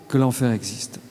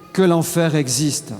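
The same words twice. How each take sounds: First: Hushed solemn repetition. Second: Said in the usual way. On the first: Real, not acted. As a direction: lower and softer, gravely. Solemn repetition, lower and softer.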